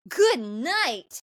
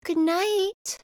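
First: Excited, higher and swooping; mock-thrilled boy's reply; jazzed. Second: High-pitched acted girl's goodnight; imitating a girl in a small raised voice; girl speaking up. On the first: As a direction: say it like he's delighted she spoke. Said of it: "he's so jazzed". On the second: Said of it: "she says".

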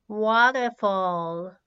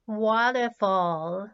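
Both takes have the same delivery.

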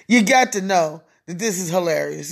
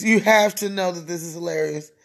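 First: Low voice leaning on "got"; stress on GOT. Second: Low voice leaning on "have"; stress on HAVE. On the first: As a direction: put the weight on "got". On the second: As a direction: insist by weighting "have". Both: Real, not acted. Line repeated with new emphasis.

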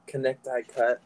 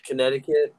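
First: "Connecticut" said as Con-nect-i-cut, every letter sounded; spelling pronunciation. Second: Said in the usual way. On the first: Shown as a demonstration. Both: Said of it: "some shit".

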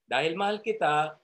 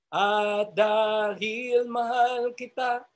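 First: Said in the usual way. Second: Tender, slow. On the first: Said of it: "repeats phrase plainly". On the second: Shown as a demonstration. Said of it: "demonstrates the loving phrase".

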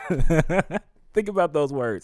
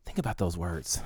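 First: Loud, high, drawn-out with a laugh; moved, emphatic exclamation after a laugh; laughing emphasis. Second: Said in the usual way. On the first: Real, not acted. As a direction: laugh in wonder, then press each word.

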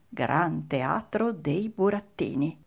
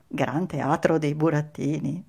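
First: Slow, measured "Gran Teatro dei Burattini"; reading a sign. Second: "Gran Teatro dei Burattini" rising into a question; wondering aloud. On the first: Narrator reading the theatre sign, slow and stately. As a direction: spell out the billboard slowly, word by word. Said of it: "un cartello con la scritta". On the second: Pinocchio pondering the sign, questioning rise on "Burattini". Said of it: "Pinocchio pensò". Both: A narrator's reading.

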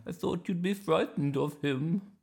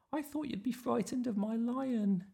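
First: High, wobbly-pitched grandma voice. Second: Put-on very high, steady child's voice; little Iris. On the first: Acted. Grandma to Iris about the bear, high and surprised. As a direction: say it as a surprised old granny. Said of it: "said Grandma". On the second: Iris answering Grandma about her lion, high childlike voice. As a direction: pipe it back as a small girl. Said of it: "said Iris".

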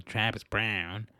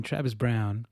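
First: Travis Brown with the weight on Brown; wrong stress on Brown. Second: Travis Brown with the weight on Travis; right stress on Travis. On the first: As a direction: lean on Brown, the old wrong way. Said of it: "emphasizing Brown". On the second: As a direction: hit Travis, the corrected way. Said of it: "That's how you sound it". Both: Shown as a demonstration.

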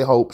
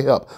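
First: "hope" with a long o, meaning help; auntie's "hope". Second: Said in the usual way. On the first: Shown as a demonstration. Quoting auntie's word to listeners, "hope" for help. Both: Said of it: "She don't say help".

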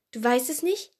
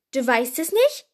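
First: Mildly surprised, rising question; puzzled, voice lifting at the end. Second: Loud, incredulous repeat; astonished, sharply rising question; dumbfounded question. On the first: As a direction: ask it in mild disbelief. First, milder take of astonished question. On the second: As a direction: ask it loudly in utter disbelief. Louder repeat, Hagrid dumbfounded. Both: A narrator's reading.

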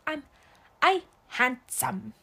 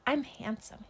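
First: Put-on toddler repeating. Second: Said in the usual way. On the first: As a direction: imitate a little kid echoing "I handsome". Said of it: "repeats the words that I say". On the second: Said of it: "I say, say".

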